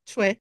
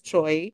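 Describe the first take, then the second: First: It sounds closer to 'chweh', without 'oi'. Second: It rhymes with 'boy', with an 'oi' sound. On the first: "Korean say it na parang Chue" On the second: "usually Americans they say it as Choi"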